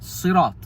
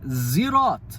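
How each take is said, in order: First: It begins with a heavy, emphatic s sound. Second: It begins with a buzzing z sound. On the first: "The Arabic word Sirat is with a sad" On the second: "Zirat doesn't sound Arabic at all. It sounds like someone with a really bad accent"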